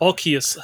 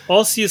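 First: Arceus said with a K sound, "AR-kee-us"; hard-c pronunciation. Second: Arceus said with an S sound, "AR-see-us"; soft-c pronunciation. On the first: Host giving the other way to say the name, hard-c Arceus. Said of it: "depending on how you like to say it". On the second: Host offering two ways to say the name, soft-c Arceus. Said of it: "I say Arceus, some people say Arceus". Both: Shown as a demonstration.

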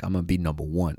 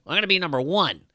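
First: Said in the usual way. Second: High-pitched competitive American boast; hammed-up American go-getter, pitched way up; brash American. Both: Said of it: "That's the American way".

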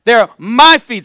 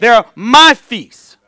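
First: "my" hit hard and slow, louder; stress on my. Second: Slow, louder "my" drawn out; stress on my. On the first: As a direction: lean slowly on "my". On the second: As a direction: lean again on "my", slowly. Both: Real, not acted. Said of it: "repeated for emphasis".

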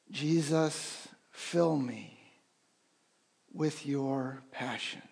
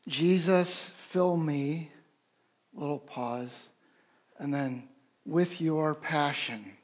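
First: Slow, softer prayer on the breath; gentle guided breath prayer; quiet breath prayer. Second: Slow, measured four-syllable phrasing with a pause; unhurried prayer cadence, pause after fill me; rhythmic breath prayer. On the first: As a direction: breathe the words in and out. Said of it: "If you wanna join me". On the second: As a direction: pace it like a breath, pause in the middle. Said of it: "this particular one is". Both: Shown as a demonstration.

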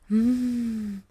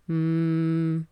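First: Weak, airy hum with little cord closure; slack, under-supported "mm"; too-loose hum. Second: Low, steady hum at medium closure; low, even "mm"; balanced hum. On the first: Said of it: "Ni tampoco este". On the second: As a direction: hum right at the middle point, neither pressed nor airy. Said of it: "Sino que es este". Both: Shown as a demonstration.

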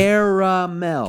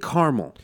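First: "Caramel" drawn out slowly as CARE-uh-MEL; emphatic three syllables. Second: "caramel" as CAR-mul, middle vowel gone; two-syllable caramel. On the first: Shown as a demonstration. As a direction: spell out "Caramel" by ear, high and slow, every syllable. Insisting on the three-syllable pronunciation. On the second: Retold or imitated. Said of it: "How do you get caramel".

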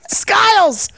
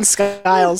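First: High, punchy name shout. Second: Said in the usual way. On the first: Shown as a demonstration. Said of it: "Just shouting Skiles". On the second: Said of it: "Just shouting".

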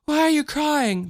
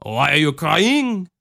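First: Put-on high-pitched little-girl voice; small child's worried question; Michelle. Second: Put-on slow Cajun accent, near usual pitch; lilting Cajun mother asking; Ma Marie. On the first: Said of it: "that's Michelle". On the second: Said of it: "that's not Ma Marie".

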